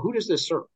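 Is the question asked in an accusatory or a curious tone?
curious. The question sounds open and genuinely curious. The asker sincerely wants to understand. The speaker calls it right. "It's like a general"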